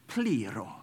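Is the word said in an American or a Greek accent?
Greek. It is said with a Greek accent. "if you're Greek, or wanting to put on a Greek accent"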